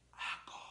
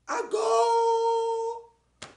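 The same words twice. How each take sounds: First: It is whispered softly. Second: It is shouted loudly.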